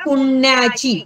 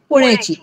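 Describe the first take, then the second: First: The first syllable is long and heavy. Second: The first syllable is short and light. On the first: It refers to religious merit. "गा गा" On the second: It means from the city of Pune. "पु हा रस्व"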